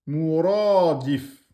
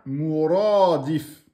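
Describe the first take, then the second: First: The word stops short on the final consonant. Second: The same.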